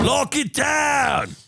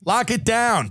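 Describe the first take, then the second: First: Slow drawn-out mock bellow, higher and punchy; mock order shout. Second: Said through a laugh, the joke winding down; laughing repeat. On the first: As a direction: bark it slowly like a ridiculous decree. Mocking Australian lockdown orders. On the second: Real, not acted. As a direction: let the laugh spill into the words. Repeats the phrase while laughing.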